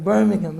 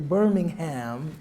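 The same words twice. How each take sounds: First: The unstressed syllables are reduced and shortened. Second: Every syllable is pronounced fully and distinctly. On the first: This is how the local people say it. "I've heard many people saying" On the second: This is how an American would say it. "my American tendency to enunciate every syllable"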